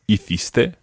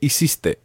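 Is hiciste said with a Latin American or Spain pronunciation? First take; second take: Spain; Latin American. First: It is said with a Spain pronunciation. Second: It is said with a Latin American pronunciation. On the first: "we're going to look at the Spain pronunciation first of all" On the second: "in Latin America"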